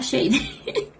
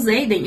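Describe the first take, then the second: First: The name starts with a sh sound. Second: The name starts with a z sound. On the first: This is a guess from the spelling alone. "se eu fosse ler sem saber que o nome dele é Zayden, eu ia falar Shade" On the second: This is the name as people commonly say it. "eu sei que o nome dele é Zayden porque todo mundo fala dele"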